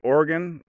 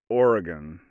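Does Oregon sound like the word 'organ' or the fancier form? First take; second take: organ; fancier form. First: It sounds like the word 'organ'. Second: It is a fancier form, unlike 'organ'. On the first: "like a heart and a lung" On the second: "if you want to get fancy"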